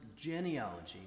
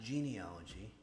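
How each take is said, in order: First: The first syllable sounds like 'gen' in genetics. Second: The first syllable sounds like the word 'genie'. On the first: The speaker calls it right. "it's pronounced genealogy, ... as in genetics" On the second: The speaker calls it wrong. "not genealogy. You're not rubbing a, a lamp and getting a genie"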